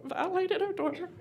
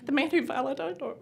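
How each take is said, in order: First: Violated said high and forceful; stress on violated. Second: Said in the usual way. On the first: Real, not acted. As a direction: push hard on the word violated. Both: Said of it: "Let me say that again".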